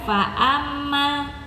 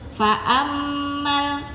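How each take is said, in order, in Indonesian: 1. Bunyi m ganda dipotong pendek. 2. Bunyi m ganda ditahan lama. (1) "bukan fa'ammal, kurang panjang sedikit" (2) "mim tasdid berarti dia dipanjangkan"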